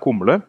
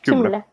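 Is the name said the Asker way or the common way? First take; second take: common; Asker. First: The name is said the common, everyday way. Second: The name is said the Asker-sounding way. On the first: This is how other people say it. The speaker calls it wrong. "folk kaller meg Kumle" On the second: This is how the name is really pronounced. The speaker calls it right. "uttales det faktisk Kumle"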